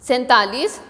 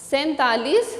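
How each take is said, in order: The two takes are said the same way.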